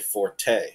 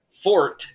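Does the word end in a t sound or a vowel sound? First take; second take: vowel sound; t sound. First: The word ends with a vowel sound. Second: The word ends with a t sound. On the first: The Italian word meaning louder. The speaker calls it wrong. "Notice I didn't say forte. Forte is Italian" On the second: The French word meaning something you're good at. The speaker calls it right. "Fort is how you pronounce the word from French"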